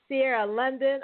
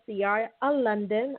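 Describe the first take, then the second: First: It is said with lively, spirited energy. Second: It is said in a sloppy, slurred way. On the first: The speaker calls it right. "Let me say it with some spirit" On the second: The speaker calls it wrong. "I sound like I've been drinking"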